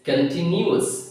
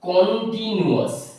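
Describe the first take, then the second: First: The first vowel is reduced, not a full 'o'. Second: The first vowel is a full 'o' sound. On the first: The speaker calls it right. "It's কন্টিনিউয়াস" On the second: The speaker calls it wrong. "আমি এটাকে কখনো বলতে পারবো না কন্টিনিউয়াস, হবে না"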